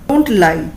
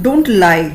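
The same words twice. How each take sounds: Both takes have the same delivery.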